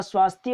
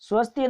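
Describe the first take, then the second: First: स्वास्थ्य opening on long "swaas". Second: स्वस्थ्य opening on short "swas". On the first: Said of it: "स्वास्थ्य होता है". (स्वास्थ्य में "स्वा" लंबा) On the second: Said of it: "स्वस्थ्य नहीं होता". (स्वस्थ्य में "स्व" छोटा) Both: Shown as a demonstration.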